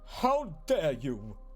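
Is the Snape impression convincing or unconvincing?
unconvincing. A weak, unconvincing imitation of Snape's voice.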